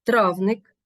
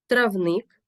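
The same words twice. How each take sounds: First: Травник as ТРАВник; stress on first syllable. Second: Травник as травНИК; stress on second syllable. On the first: Teacher naming a herb encyclopedia, травник stressed on ТРАВ. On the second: Teacher naming a garden plot, травник stressed on НИК. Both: Shown as a demonstration. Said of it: "Порівняйте".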